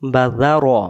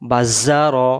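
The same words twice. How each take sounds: First: The z sound is said softly. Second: The z sound is said heavily. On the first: "এটা নরম করে" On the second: "এই জাল অক্ষরের জায়গায় যদি এই অক্ষরটা থাকতো"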